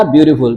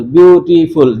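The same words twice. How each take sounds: First: Said in the usual way. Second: "ब्यूटीफुल" split syllable by syllable; broken into syllables. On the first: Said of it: "जितनी दफा आप इस लफ्ज के टोटे करते हैं". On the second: Shown as a demonstration. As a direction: break "ब्यूटीफुल" into its separate parts. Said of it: "टोटे करते हैं, हिज्जे करते हैं, उसको ब्रेक करते हैं".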